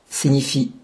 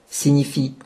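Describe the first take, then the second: No difference in how they are said.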